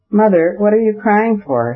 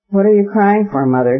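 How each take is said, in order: First: Put-on high, lightly tearful child; a boy on the edge of tears; mild tearful plea, higher pitch. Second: Put-on tearful child. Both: A narrator's reading. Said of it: "he cried in a tearful voice".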